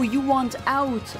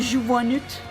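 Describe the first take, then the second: First: Out is said with a standard English vowel. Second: Out is said with a strong Scottish vowel. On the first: The speaker finally understood it. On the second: Someone else said it.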